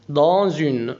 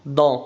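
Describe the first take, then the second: First: "dans une" joined as "da zyn", the s sounding as z; liaison z sound. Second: "Dans" said as "da", the final s fully silent. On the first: Teacher showing the z liaison in "dans une". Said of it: "ولاحظ هنا إن الاس تنطق زد أيضًا". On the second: Teacher showing "Dans" alone ends without the s. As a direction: say "Dans" alone with no s sound at the end. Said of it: "لو هنقول dans لوحدها لا تنطق الاس". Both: Shown as a demonstration.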